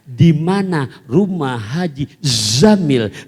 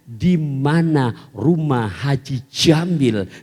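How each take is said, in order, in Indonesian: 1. Nama itu dimulai dengan bunyi 'z'. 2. Nama itu dimulai dengan bunyi 'j'. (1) "Merubah menjadi huruf zai" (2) "Jim. Jim. Tuh. Kedengarannya begitu"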